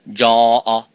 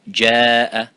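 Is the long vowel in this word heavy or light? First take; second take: heavy; light. First: The long vowel is heavy and full. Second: The long vowel is light and thin. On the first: The speaker calls it wrong. "You wouldn't say" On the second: The speaker calls it right. "light and empty mouth. For example, you would say"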